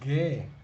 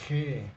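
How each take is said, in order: First: It starts with a hard g sound. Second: It starts with a throaty h sound. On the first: The speaker calls it wrong. "esto no es ge" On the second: The speaker calls it right. "esto es G"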